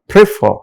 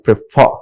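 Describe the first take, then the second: First: The stress is on the first syllable. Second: The stress is on the second syllable. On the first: The speaker calls it wrong. "they are highlighting first syllable" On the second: The speaker calls it right. "second syllable takes stress for verbs"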